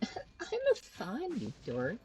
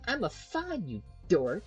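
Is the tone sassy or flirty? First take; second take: flirty; sassy. First: It is said in a flirty, playful tone. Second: It is said in a sassy, sarcastic tone.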